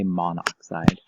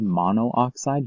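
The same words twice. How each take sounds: First: The two o vowels merge into one. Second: The two o vowels are said separately. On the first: The speaker calls it right. "So we would say monoxide" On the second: The speaker calls it wrong. "We wouldn't say monoxide just because it sounds really awkward"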